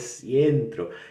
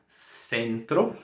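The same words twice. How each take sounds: First: The first vowel is a diphthong, like 'ie'. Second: The first vowel is a plain 'e' sound. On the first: The speaker calls it wrong. "acha que tem que colocar o E e E em tudo" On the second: The speaker calls it right. "você vai falar"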